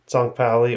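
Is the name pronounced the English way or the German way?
German. The name is said with German pronunciation.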